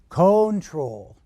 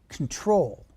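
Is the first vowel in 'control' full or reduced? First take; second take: full; reduced. First: The first vowel is pronounced fully and clearly. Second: The first vowel is reduced to a weak uh. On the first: The speaker calls it wrong. "pronounce these letters very fully" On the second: The speaker calls it right. "the letter O is reduced altogether or very weak"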